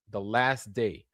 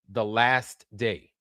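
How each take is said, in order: Both takes have the same delivery.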